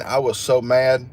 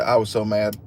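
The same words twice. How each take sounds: First: Slowed, leaning hard on so; stressed so mad. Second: Said in the usual way. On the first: Retold or imitated. Telling viewers about the rainy keys, stressing so. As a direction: stretch the word so to sell how mad he was. Retelling anger at himself.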